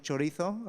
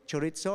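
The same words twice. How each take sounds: First: "chorizo" with a Castilian th for the z; "chorizo" in European Spanish, lisped z; correct Spanish pronunciation. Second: "chorizo" with ts for the z; "chorizo" Italian-style, like pizza; mispronounced chorizo. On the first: Shown as a demonstration. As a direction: say "chorizo" as cho-REE-tho. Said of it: "correcting everyone's pronunciation". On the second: Retold or imitated. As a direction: say "chorizo" as cho-REET-so. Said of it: "They would be all calling it".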